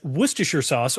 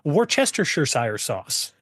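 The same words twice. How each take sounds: First: The name is said in its usual clipped form. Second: Every letter of the name is pronounced. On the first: "or more accurately described as" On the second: "if you really want to pronounce every letter of every word"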